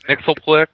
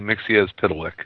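First: The name is squeezed into a few quick syllables. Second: The name is spread over more syllables. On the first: It is a shortcut to get the name over with. "I would say Nixelplick just to get it over with" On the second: It is closer to the full name. "it's a lot longer than that"

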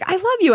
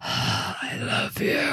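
First: It is said in a plain, ordinary voice. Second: It is said in a breathy, sighing voice.

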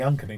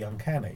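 First: The stress falls on an unusual syllable. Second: The stress falls on the usual syllable. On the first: This is the group's playful nickname. "It makes it shorter to say as well" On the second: This is the standard title. "not the"

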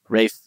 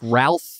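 First: The name is said without an L, as Rafe. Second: The name is said with an L, as Ralf. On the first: The speaker calls it right. "It's the one that makes the least sense" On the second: The speaker calls it wrong. "It's Ralph Fiennes. That's how it's spelled"

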